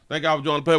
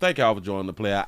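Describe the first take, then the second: First: It is said with excited, high energy. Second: It is said with calm, lower energy. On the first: The speaker calls it wrong. "I sound excited" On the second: The speaker calls it right. "let me calm down"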